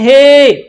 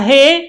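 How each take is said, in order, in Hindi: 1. स्वर ज़ोर से और लंबा खींचा गया है। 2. स्वर छोटा है, खींचा नहीं गया है। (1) "और दूर है तो कहते हैं" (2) "थोड़ी नजदीक तक आवाज जाती है"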